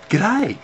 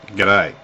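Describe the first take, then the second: First: It is said in a warm, pleased tone. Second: It is said in a cool, grudging tone. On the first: The speaker is happy to see the listener. "happy to see you" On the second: The speaker is not fond of the listener. "I've seen you around. I'm not. I'm not too fond of you, mate"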